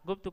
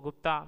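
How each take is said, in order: First: The name ends without a long 'aa' vowel. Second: The name ends with a long 'aa' vowel. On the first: The speaker calls it right. "ह्रस्व" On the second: The speaker calls it wrong. "सर्वथा ह्रस्व ओ के स्थान पर दीर्घ आ उच्चारण करते हैं"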